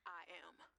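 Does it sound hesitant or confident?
hesitant. It sounds hesitant and unconvincing.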